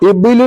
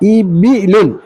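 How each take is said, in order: First: The b sound is followed directly by l. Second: A short i vowel follows the b sound. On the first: The speaker calls it wrong. "ബാ സുക്കൂൻ കൊടുത്ത് ഉച്ചരിക്കും" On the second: The speaker calls it right. "ആദ്യമേ ഇബി ഇബി അണ്ട ഇബിലുൻ"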